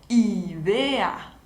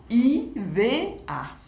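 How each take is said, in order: The two takes are said the same way.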